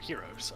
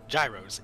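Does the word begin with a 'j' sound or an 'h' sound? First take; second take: h sound; j sound. First: It is said the Greek way, starting with 'h'. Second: It is said the New York way, starting with 'j'. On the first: "in Greece they're heroes" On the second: "in New York they're gyros"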